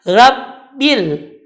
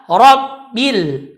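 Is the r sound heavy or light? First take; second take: light; heavy. First: The r sound is light and thin. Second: The r sound is heavy and thick. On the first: The speaker calls it wrong. "Dia membaca ranya tidak dengan tebal" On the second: The speaker calls it right. "Ra saja yang tebal sedangkan D-nya tipis"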